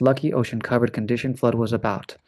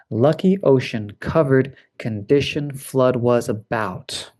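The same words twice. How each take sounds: First: "Lucky ocean covered condition flood was about" fast, x1.6; as quickly as possible. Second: Said in the usual way. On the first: Shown as a demonstration. Teacher reading the practice words quickly. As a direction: race through the list. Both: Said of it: "as quickly as possible".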